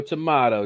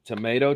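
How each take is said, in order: First: Tomato with a broad "ah", to-MAH-to; tomahto. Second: Tomato with a long "ay", to-MAY-to; tomayto. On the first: Chatting host answering with the second take, "tomahto". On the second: Chatting host playing the tomato line, first "tomayto". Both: Shown as a demonstration.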